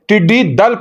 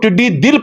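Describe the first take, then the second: First: The second word is said with an 'a' vowel. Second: The second word is said with an 'i' vowel. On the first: The speaker calls it right. "टिड्डी दल पढ़ना ही दुरुस्त होगा" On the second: The speaker calls it wrong. "टिड्डी दिल पढ़ने के बजाय"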